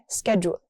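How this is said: It is said with an American pronunciation. "In the U S, we say"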